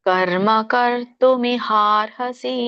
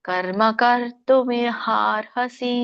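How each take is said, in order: The two takes are said the same way.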